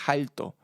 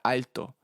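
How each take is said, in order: First: It begins with a Dominican J sound. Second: It begins with a plain vowel.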